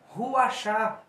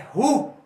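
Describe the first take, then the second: First: The word ends with an added 'a' vowel. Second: The word ends without an added vowel. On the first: The speaker calls it wrong. "não é Ruachá" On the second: The speaker calls it right. "é Rua"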